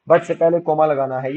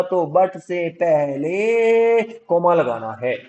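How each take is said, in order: First: Said in the usual way. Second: पहले stretched long and held; long, lingering stress on पहले; drawn-out key word. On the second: Shown as a demonstration. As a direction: hold the vowel of पहले, slowly.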